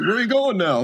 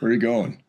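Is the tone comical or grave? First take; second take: comical; grave. First: It is said in a light, comical way. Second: It is said in a slow, grave way.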